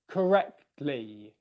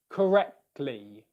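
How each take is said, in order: Both takes have the same delivery.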